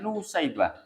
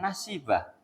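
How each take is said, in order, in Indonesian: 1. Nama ini diawali dengan 'Nu' dan ada 'sai'. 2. Nama ini diawali dengan 'Na' dan ada 'si'. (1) "Ada yang menyebut dengan sebutan Nusaibah" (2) "Ada yang menyebut dengan istilah Nasibah"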